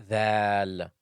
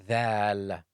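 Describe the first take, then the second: No difference in how they are said.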